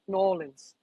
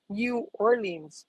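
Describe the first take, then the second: First: It is said in the local Southern way. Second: It is said in standard American English.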